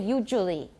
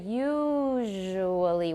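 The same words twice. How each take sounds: First: The middle consonant is a j sound. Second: The middle consonant is a smooth zh. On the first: The speaker calls it wrong. "We don't say usually" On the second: The speaker calls it right. "So we say usually"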